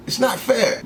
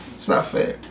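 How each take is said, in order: First: Said in the usual way. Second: Breathy whispered sulk; a hushed muttered complaint. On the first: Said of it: "It's not fair (repeated, whispered)". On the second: Real, not acted. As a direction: whisper it to yourself, sulking.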